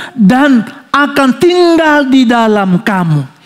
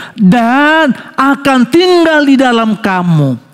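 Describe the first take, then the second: No difference in how they are said.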